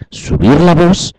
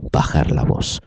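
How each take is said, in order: First: Raised voice. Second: Dropped low into a soft whisper; lowered voice. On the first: Teacher showing students how to raise the voice, lifted high. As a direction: demonstrate raising the voice up high. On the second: Teacher showing students how to lower the voice, whispered. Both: Shown as a demonstration.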